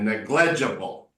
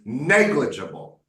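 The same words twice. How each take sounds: First: The stress is not on the first syllable. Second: The stress is on the first syllable. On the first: The speaker calls it wrong. "You are doing it wrong when you say negligible" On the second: The speaker calls it right. "The way you should do it is negligible"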